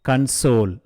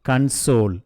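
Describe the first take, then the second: The two takes are said the same way.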